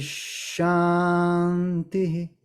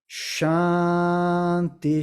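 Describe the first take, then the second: First: The word ends with a slight echoed vowel. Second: The word ends with no echoed vowel. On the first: "Com esse ligeiro eco no final, aqui no terceiro Shanti" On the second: "Os demais vocês deixam mudo"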